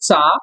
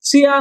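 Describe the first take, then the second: First: It is said as one blended syllable, cha. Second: It is said as two separate syllables, chi-ya. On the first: The speaker calls it right. "হবে চা" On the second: The speaker calls it wrong. "চিয়া না হয়ে"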